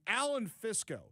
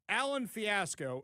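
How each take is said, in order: First: The surname is said with two syllables. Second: The surname is said with three syllables. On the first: The speaker calls it right. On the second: The speaker calls it wrong.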